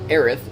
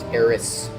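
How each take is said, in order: First: The name ends with a th sound. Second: The name ends with an s sound. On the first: This is the English reading of the name. "we would read Aerith and and appropriately read it with a th" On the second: This is the reading from a Japanese perspective. "pronounced Eris with a su sound at the end"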